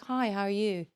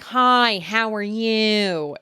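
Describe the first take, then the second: First: It is said flat, with little expression. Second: It is said with lively, animated expression.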